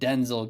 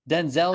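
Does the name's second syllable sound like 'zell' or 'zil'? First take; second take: zil; zell. First: The second syllable sounds like a reduced 'zil'. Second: The second syllable sounds like a full 'zell'. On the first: "Denzel gives me I L" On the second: "Denzel gives me Z E L L"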